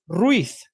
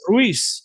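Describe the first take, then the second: First: It is said in a Spain accent, z like 'th'. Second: It is said in a Latin American accent, z like 's'.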